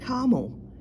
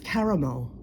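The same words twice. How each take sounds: First: The word is said with two syllables. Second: The word is said with three syllables. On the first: The speaker calls it wrong. "not caramel ... There's a separate syllable you guys are missing" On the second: The speaker calls it right. "it's caramel"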